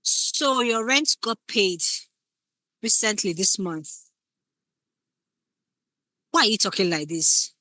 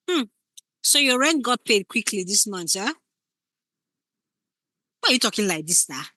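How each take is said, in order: First: Slow, loaded hint about the rent; suspicious partner, insinuating; pointed insinuation. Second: Suspicious partner, insinuating; pointed insinuation. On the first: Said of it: "when you think of a subtext". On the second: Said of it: "You can see the difference". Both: Shown as a demonstration. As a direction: needle them without accusing.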